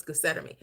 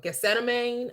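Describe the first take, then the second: First: "Gethsemane" ending in a short "mee". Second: "Gethsemane" ending in a long "mane" sound; alternative pronunciation. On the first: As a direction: say "Gethsemane" as geh-SET-uh-mee. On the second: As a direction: say "Gethsemane" as geh-SET-uh-mayn. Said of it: "I could be mispronouncing it". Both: Shown as a demonstration.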